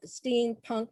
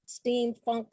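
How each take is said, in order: First: Said in the usual way. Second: "steampunk" said with an f, as "steamfunk"; "steampunk" ending in funk. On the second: Real, not acted. Lists steamfunk beside steampunk.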